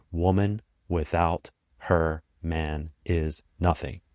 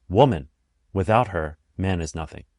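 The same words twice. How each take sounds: First: Slow, word by word from "Woman" to "nothing"; no punctuation. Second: WOMAN punched alone, pause, "without her", pause, "man is nothing"; pauses as punctuation. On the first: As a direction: space "Woman without her man is nothing" evenly, no phrase grouping. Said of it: "when you first saw the words". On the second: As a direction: break after "Woman" and after "her". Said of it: "by changing the punctuation". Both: Shown as a demonstration.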